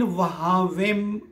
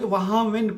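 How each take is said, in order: First: वहामिम drawn out, ending in M; correct pronunciation. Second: वहामिन ending in an N sound; common misreading. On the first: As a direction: say वहामिम slowly with a closed final M. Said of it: "उनका तलफ़ुज़ अगर दुरुस्त नहीं बनता". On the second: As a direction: say वहामिन with a final N instead of M. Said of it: "इसको अक्सर लोग वहामिन पढ़ लेते हैं". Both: Shown as a demonstration.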